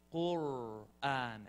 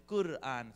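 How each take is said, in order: First: "Qur'an" very slow, long rolled R; demonstrated Qur'an. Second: "Qur'an" quicker, with a short tapped R; student's Qur'an attempt. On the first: Shown as a demonstration. Teacher asking student to try it, slow rolled "Qur'an". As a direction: stretch and trill the R in "Qur'an". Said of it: "Try it. I said, Say". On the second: Student trying it for the teacher, short-R "Qur'an". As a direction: imitate a learner's brief R in "Qur'an". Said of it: "And she said".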